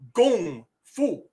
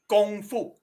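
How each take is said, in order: First: It is said the Cantonese way, closer to kung. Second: It is said the Mandarin way, with a flat tone. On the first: "if you wanted to do it in Cantonese" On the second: "That is in Mandarin"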